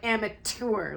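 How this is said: The word is spat out in a condescending way. The speaker calls it wrong. "like they're spitting or something"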